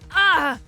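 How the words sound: The scream sounds hurt and pained. He is screaming because he is hurt. The speaker calls it right. "screaming because he was in pain"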